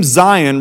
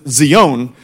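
First: The word has an English pronunciation. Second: The word has a Hebrew pronunciation.

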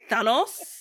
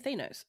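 First: The name has a British pronunciation. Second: The name has an American pronunciation. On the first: The speaker calls it right. "My brother, you're British. Thanos. Okay, let's be serious. It's Thanos" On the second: The speaker calls it wrong. "They also say Thanos, so I don't trust them"

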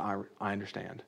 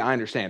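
First: It is said in a gentle, compassionate tone. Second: It is said in a curt, dismissive tone. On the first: He truly empathizes with the struggle. The speaker calls it right. "the tone in which he said it was equally as important as the words" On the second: He brushes the struggle off. The speaker calls it wrong. "It wasn't like, hey"

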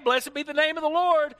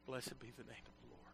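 First: It is said in a light, rhythmic way. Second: It is said in a heavy, sorrowful way.

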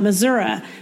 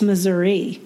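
First: It is said the southern Missouri way. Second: It is said the northern Missouri way. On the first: The speaker is from the southern part of the state. "if you lived in southern Missouri, ... you call it Missouri" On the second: The speaker is from the northern part of the state. "if you live up by St. Louis, it's Missouri"

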